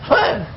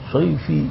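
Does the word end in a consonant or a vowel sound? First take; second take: consonant; vowel. First: The word ends on the consonant, no final vowel. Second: The word ends with an added final 'i' vowel. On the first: The reading stops at a pause point in the verse. The speaker calls it right. "shaif itu berarti itu wakaf" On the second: The reader follows the written letters without pausing. The speaker calls it wrong. "jangan shaifi"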